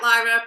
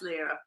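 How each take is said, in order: First: Lyra said LIE-ra; first syllable of Lyra like "lie"; spelling pronunciation. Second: Lyra said LEE-ra; first syllable of Lyra like "leer"; correct name pronunciation. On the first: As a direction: say Lyra to rhyme with Myra. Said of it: "Spelt Lyra, pronounced Lyra". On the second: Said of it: "pronounced Lyra". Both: Shown as a demonstration.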